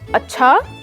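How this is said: The word is said with a curious, questioning tone.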